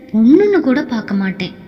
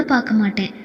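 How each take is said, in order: First: Fast, heated threat with பொண்ணுன்னு hit hard; angry threat. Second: Softer, falling threat, பார்க்க pressed down; quiet angry threat. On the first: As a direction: snap the warning out, stressing பொண்ணுன்னு. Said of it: "அவனுக்கு இருந்த கோபத்தில்". (பொண்ணுன்னு என்பதை அழுத்தி கோபமாக மிரட்டல்) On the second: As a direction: grind out பார்க்க மாட்டேன் low and final. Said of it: "கண்கள் சிவக்க பற்களை கடித்து அவன் கூற". (பற்களைக் கடித்து அமைதியான மிரட்டல்) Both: A narrator's reading.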